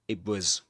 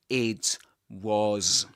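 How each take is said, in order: First: The T blends toward P and is not released. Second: Each word is said separately with a clear T. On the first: The speaker calls it right. "gets assimilated to the following sound and we get P, but we don't release the air" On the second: The speaker calls it wrong. "you don't say it was"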